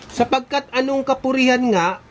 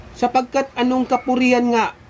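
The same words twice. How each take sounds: The two takes are said the same way.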